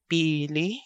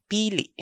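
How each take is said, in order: First: Pili with final vowel open and rising. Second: Pili higher, last vowel cut short; stopped final vowel. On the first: Teacher contrasting two heteronyms, first pili left open. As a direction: let the end of pili lift, without a stop. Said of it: "So we have pili and pili". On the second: Teacher contrasting two heteronyms, second pili with a stop. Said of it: "second vowel has a stop". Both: Shown as a demonstration.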